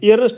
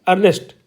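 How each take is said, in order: First: The word begins with an 'ee' vowel sound. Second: The word begins with an 'er' vowel sound. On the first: The speaker calls it wrong. "ईयरनेस्ट नहीं बोलेंगे हम इसको" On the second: The speaker calls it right. "हम क्या बोलेंगे, अर्नेस्ट"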